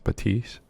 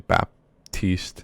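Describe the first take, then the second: First: No p sound is heard before the t. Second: A p sound is heard before the t. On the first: This is how the speaker believes it is said. "but I think it's Batiste" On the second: This is how some other people say it. "you're gonna hear people say Baptiste"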